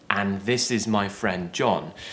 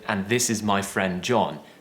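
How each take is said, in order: The two takes are said the same way.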